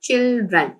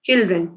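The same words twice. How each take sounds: First: Put-on "children" split into two separate syllables. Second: Said in the usual way. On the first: Shown as a demonstration. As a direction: break "children" after the first syllable, chil, dren. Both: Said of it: "separate separate आप pronounce करेंगे".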